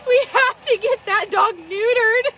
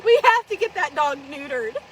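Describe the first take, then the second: First: Louder insistent plea. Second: Laugh-crying plea. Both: Retold or imitated. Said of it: "And I'm like".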